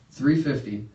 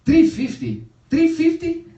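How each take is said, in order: First: Said in the usual way. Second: Loud, high mock disbelief; outraged haggler. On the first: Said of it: "And the guy goes". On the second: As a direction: cry out the price in mock outrage. Dad outraged at the price.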